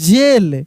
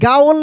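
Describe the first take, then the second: First: It starts with a j sound, like jail. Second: It starts with a g sound, like gaa-ol. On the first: The speaker calls it right. "इसको हम लोग पढ़ते हैं जेल" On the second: The speaker calls it wrong. "नहीं गाओल नहीं"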